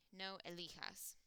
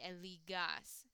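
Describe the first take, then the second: First: Elijas with a J sound, Spanish H-like; correct form elijas. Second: Eligas with a hard G like in gas; wrong form eligas. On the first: Teacher giving the correct form, J sound. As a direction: say elijas, the J breathy like an H. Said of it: "So G is gonna change to J". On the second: Teacher showing the wrong spelling, hard G. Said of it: "because if you said that". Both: Shown as a demonstration.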